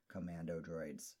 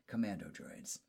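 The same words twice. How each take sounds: First: It is said in a flat monotone. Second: It is said with normal expressive intonation.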